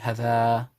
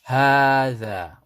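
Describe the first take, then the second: First: The first vowel is short. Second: The first vowel is long. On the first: The speaker calls it wrong. "people might just say hada, but which is wrong" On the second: The speaker calls it right. "You pronounce the ha two counts and the dha two counts"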